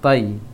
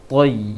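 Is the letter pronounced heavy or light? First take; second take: light; heavy. First: The letter is said light and thin. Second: The letter is said heavy and thick. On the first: The speaker calls it wrong. "jangan tai" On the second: The speaker calls it right. "tapi toy"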